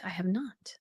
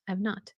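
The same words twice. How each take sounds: First: Whisper. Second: Said in the usual way. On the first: Real, not acted.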